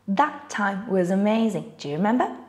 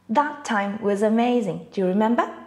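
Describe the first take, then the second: No difference in how they are said.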